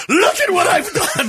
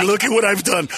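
First: Higher-pitched mock-creator boast; grandiose proclamation. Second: Said in the usual way. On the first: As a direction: proclaim your handiwork to the heavens. Second, grandiose take of the boast.

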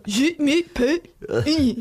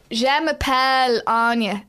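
First: Exaggerated French accent, high and slow; hammed-up French teacher, loud and drawn out; teacher's French accent. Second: Put-on loud, drawn-out French in an Irish accent; French with no attempt at the accent, Irish through and through. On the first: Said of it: "And the teacher would go". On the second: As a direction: mimic a pupil saying French with a plain Irish accent. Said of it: "speakking French in class in an Irish accent".

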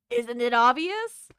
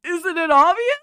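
First: A hint of a creaky old man; lightly voiced old geezer. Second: Loud, high, hammed-up old man. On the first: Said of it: "I love your old man voice". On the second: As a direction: ham up the old geezer. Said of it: "let me do more".

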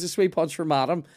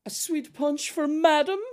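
First: Lightly voiced waiter, louder and a little higher; waiter impression. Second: Very high, drawn-out waiter voice; waiter impression. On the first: Retelling the waiter serving madam, lightly mocked announcement. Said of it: "so he goes". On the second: Waiter serving a sweet punch to madam, high-pitched mock announcement. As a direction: exaggerate a waiter announcing a drink, high and loud. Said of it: "he comes over and he goes".

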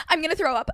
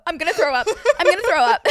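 First: Lightly mimicked queasy friend; a hint of a carsick friend; friend feeling sick. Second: High, loud, laughing mock panic; laughing imitation. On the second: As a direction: laugh through her friend's words. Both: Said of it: "She's like".

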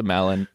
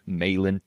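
First: "Malin" with a short a, as in "cat"; short-a pronunciation. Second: "Malin" with a long a, as in "may"; long-a pronunciation. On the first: Host thanking a gifter, "Malin" said MAL-in. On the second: Host correcting himself on the name, "Malin" said MAY-lin. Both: Shown as a demonstration. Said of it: "don't wanna get your name wrong".

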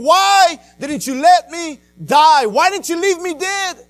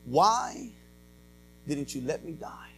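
First: Loud, high, drawn-out retold cry; screaming at God. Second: Low, hushed plea to God; subdued retold outcry. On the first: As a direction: hurl the anguished question at heaven. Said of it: "I'm screaming at God". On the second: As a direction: ask it softly, as a retold cry. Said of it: "screaming out to God".

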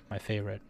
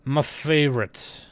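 First: Said in the usual way. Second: Drawn-out FAVORITE in a put-on voice; playful put-on voice. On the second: Vlogger savoring a favorite series, playful put-on voice. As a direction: stretch out FAVORITE slowly, playfully affected.

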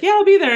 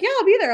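First: Chirpy. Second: Bright, much higher and breezy; high chirpy quote. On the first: Acted quote of own casual reply. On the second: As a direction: toss it off cheerfully, way up high. Friend retells the same reply. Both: Retold or imitated.

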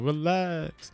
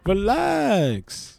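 First: Soft relax. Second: Relax drawn out higher with a falling glide; sing-song relax. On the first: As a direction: say Relax softly to calm things. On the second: Telling a hypothetical heckler to relax, drawn-out higher. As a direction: lift Relax up then let it fall. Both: Shown as a demonstration. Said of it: "What you talking about?".

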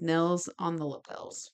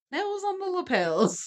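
First: Said in the usual way. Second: High, playful sing-song on "Nails on the lapels"; sing-song rhyme. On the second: Shown as a demonstration. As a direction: savour the rhyme in a high lilt. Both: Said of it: "that rhymed when I wrote it".

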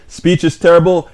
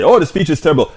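First: Said in the usual way. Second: Lightly mocking a dismissive critic; mocking one-word verdict. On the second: Host mocking a viewer's lazy one-word verdict, mildly sneering. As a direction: toss it off like a lazy complaint. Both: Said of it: "It's great to give one word state".

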